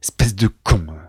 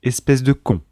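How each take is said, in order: First: It is said in a harsh, aggressive way. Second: It is said in a calm, neutral way.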